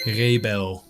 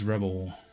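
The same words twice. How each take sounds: First: The name is pronounced the Dutch way. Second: The name is pronounced the English way.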